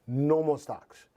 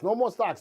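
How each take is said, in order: First: A slow, showy Vegas announcer. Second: Said in the usual way. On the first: Shown as a demonstration. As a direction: stretch it out like a Las Vegas host. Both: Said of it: "that's my, my Vegas voice".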